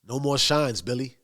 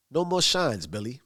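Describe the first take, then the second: First: Understated, even warning; calm. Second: Reiterate it with restrained insistence; not having it. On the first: Tommy replying to Billy Bats about shines, rather calmly. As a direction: keep it level, softening on the name. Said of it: "and rather calmly". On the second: Tommy reiterating to Billy, not having it. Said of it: "Tommy reiterates, 'cause he's not having it". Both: Retold or imitated.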